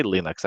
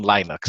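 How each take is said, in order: First: "Linux" as LIN-ucks; short i, as in "pin", opening "Linux". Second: "Linux" as LIE-nucks; long i, as in "line", opening "Linux". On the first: Shown as a demonstration. Giving own pronunciation, "Linux" as LIN-ucks. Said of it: "I, I say Linux". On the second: Retold or imitated. Quoting what other people say, "Linux" as LIE-nucks. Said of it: "all these people saying Linux".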